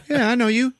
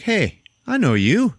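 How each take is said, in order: First: Higher, menacing recognition. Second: High, slow recognition. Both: Retold or imitated. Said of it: "and he's like".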